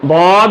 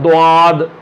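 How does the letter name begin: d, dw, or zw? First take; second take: d; dw. First: It begins with a plain 'd' sound. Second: It begins with a 'dw' sound. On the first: The speaker calls it right. "लिहाजा ये बाद होगा" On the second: The speaker calls it wrong. "इसको भी लोग गलत इस तरह से पढ़ते हैं"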